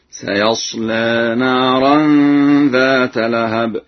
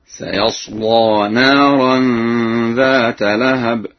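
First: Light l and e-like vowel in سيصلى; slow recitation, سيصلى ending in a half-inclined lee; thin lam, taqlil. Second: Heavy dark l and open aa in سيصلى; slow recitation, full-mouthed laa in سيصلى; thickened lam. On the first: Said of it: "وله ترقيقها مع التقليل هكذا". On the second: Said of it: "تغليظ اللام في حالة فتح الياء". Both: Shown as a demonstration.

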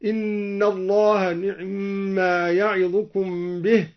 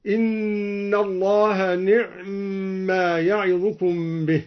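First: نعما with the vowel on the ain cut very short; only touch the vowel of the ain in نعما; اختلاس كسرة العين; snatched ain vowel. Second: نعما with the ain closed and given no vowel, held slowly; إسكان العين في نعما; silent ain. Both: Shown as a demonstration. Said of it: "باختلاس العين وإسكانها هكذا".

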